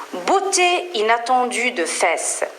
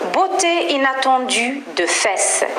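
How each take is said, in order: No difference in how they are said.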